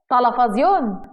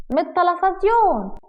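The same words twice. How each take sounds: First: Incredulous echo. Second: High, drawn-out innocent answer; childlike innocence. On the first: Husband questions wife's excuse, incredulous. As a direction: echo the word back in disbelief. Husband echoes her in disbelief. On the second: Wife explains where she learned it, childlike innocence. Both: Acted.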